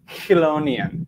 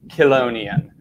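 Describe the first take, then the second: First: The word starts with a softer, non-k sound. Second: The word starts with a hard k sound. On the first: "they don't actually have that hard k sound, and that it would be more like" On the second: "correct pronunciation of this word is"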